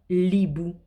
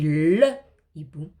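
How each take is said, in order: First: The article's vowel is dropped and joined to the noun. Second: The article's vowel is kept, separate from the noun. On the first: The speaker calls it wrong. "je ne peux pas dire l'hibou" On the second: The speaker calls it right. "Je dis le hibou"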